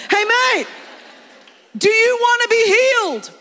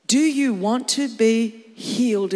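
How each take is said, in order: First: High, loud comic holler; hammed-up blunt challenge, yelled; brash Jesus. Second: Said in the usual way. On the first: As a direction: shout the question bluntly, without sympathy. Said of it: "he says to him".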